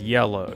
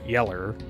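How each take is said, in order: First: The word is said in a standard accent. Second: The word is said in a country accent.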